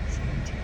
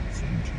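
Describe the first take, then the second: No difference in how they are said.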